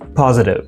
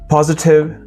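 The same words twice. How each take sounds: First: The middle t is a soft d sound. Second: The middle t is a clear t sound. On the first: "positive in American" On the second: "Positive in British"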